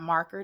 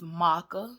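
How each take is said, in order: First: It is said with a standard American pronunciation. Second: It is said with an African American vernacular pronunciation. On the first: "marker is not marker to me" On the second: "it's marker"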